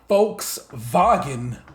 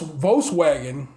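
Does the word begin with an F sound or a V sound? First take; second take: F sound; V sound. First: The word begins with an F sound. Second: The word begins with a V sound.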